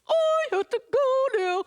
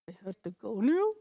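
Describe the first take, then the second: First: It sounds happy and cheerful. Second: It sounds curious and questioning.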